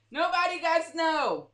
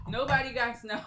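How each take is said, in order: First: Nobody said higher and louder; stress on Nobody. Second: Said in the usual way. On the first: Shown as a demonstration. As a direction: punch Nobody firmly.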